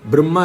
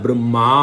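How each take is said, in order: First: The final vowel is short. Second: The final vowel is long. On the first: The speaker calls it wrong. "பிரம்மா இல்லை" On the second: The speaker calls it right. "பிரம்மா தீர்க்கம் பெருசு long"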